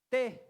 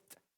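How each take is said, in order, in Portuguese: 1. O t é pronunciado do jeito português. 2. O t é pronunciado do jeito inglês. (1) "Em vez de dizer T" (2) "a gente diz t"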